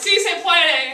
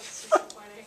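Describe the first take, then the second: First: It is yelled at full volume. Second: It is said at normal speaking volume.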